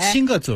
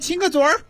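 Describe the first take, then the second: First: The last syllable ends plain, without an r-sound. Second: The last syllable ends with an r-colored sound. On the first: It sounds serious and stiff. "你看一下子就很严肃了" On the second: It sounds casual and playful. "这得加儿化"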